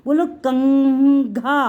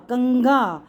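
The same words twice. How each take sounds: First: कंघा stretched very slowly, ng drawn out; teacher dragging out कंघा for children to repeat; slow sounding-out. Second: Said in the usual way. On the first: Shown as a demonstration.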